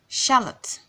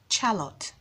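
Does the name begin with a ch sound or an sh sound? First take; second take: sh; ch. First: The name begins with an sh sound. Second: The name begins with a ch sound. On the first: The speaker calls it right. "does not make the ch sound, but makes the sh sound" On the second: The speaker calls it wrong. "and not Charlotte"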